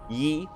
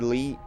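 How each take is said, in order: First: The name begins without an L sound. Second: The name begins with an L sound.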